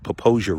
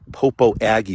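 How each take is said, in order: First: The name is said the way locals say it. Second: The name is said in a non-local pronunciation. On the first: The speaker calls it right. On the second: The speaker calls it wrong.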